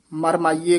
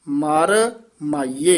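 First: ਮਰ ਮਾਈਏ as one quick word; run together. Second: Slow ਮਰ, a pause, then ਮਾਈਏ; separated words. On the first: Teacher warning against it, ਮਰ ਮਾਈਏ run together. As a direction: join ਮਰ to ਮਾਈਏ without a gap. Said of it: "ਇਕੱਠਾ ਨਹੀਂ ਕਰਨਾ ਹੈ". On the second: Teacher modelling the split, slow ਮਰ ਮਾਈਏ with a gap. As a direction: keep ਮਰ and ਮਾਈਏ clearly apart. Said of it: "ਮਰ ਮਾਈਏ ਇਕੱਠਾ ਨਹੀਂ ਕਰਨਾ". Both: Shown as a demonstration.

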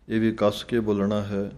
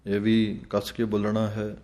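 No difference in how they are said.

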